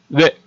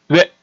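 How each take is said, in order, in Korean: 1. 입술 모양이 변하지 않는 단모음 하나로 나는 소리다. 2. 입술 모양이 변하지 않는 단모음 하나로 나는 소리다.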